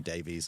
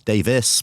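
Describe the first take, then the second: First: The name ends with a long 'ees' sound. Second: The name ends with a short 'is' sound. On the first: This is how the name is said in America. "I gave up after a while in America and just accepted it's got to be Davies" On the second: This is how the name is said in Britain. "in Britain is Davis"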